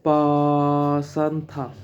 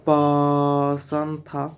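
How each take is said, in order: No difference in how they are said.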